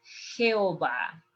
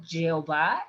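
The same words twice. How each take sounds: First: Jehová with a rasped Spanish j, slower; correct Jehová. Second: Jehová with an English j; Jehová mispronounced with a j like judge; wrong Jehová. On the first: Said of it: "it's Jehová". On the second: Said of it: "It's not Jehová". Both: Shown as a demonstration.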